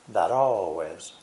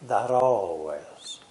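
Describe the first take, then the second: First: The T is a quick flap, like a soft D. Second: The T is a quick flap, like a soft D.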